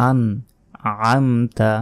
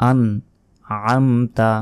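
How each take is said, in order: The two takes are said the same way.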